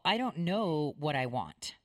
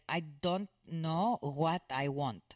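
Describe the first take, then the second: First: It is said in a plain, local accent. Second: It is said with a Mediterranean-sounding accent. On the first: "how we would say" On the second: "is how they would say it"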